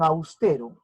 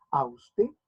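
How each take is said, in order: First: Said in the usual way. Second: "Austero" split in three beats, aus-te-ro; syllable by syllable. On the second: Shown as a demonstration. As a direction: pause after each syllable of "Austero". ("Austero" separado en sílabas, aus-te-ro) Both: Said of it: "tres golpes de voz, tres sílabas".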